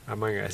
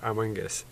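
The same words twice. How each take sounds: First: The phrase is said quickly, running together. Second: The phrase is said at a normal, slower pace.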